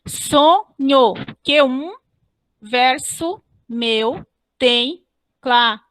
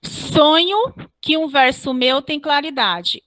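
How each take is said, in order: First: "Sonho, Q um, verso meu tem claridade" in slow separated beats; measured metrical counting of "Sonho, Q um, verso meu"; syllable-by-syllable scansion. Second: Said in the usual way. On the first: Shown as a demonstration. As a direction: chop "claridade" into cla, ri, dade with pauses, keeping "Q um" joined. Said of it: "vocês não separam". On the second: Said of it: "Olha como foi feita a metrificação".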